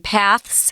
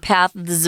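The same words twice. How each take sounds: First: The word ends with a hissing S sound. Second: The word ends with a buzzing Z sound. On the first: "paths with an S" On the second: "paths with a Z"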